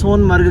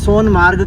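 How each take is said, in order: First: The second part has a short 'a' vowel. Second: The second part has a long 'aa' vowel. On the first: "मैं सोनमर्ग कह रहा हूँ" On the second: "ये सोनमार्ग कह रही है"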